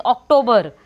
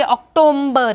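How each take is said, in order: First: October said plainly as ok-toe-ber, no m; correct October. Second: October with an added m, ok-tom-ber; wrong October. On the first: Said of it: "It is October". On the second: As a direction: put an m into October. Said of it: "don't say October". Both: Shown as a demonstration.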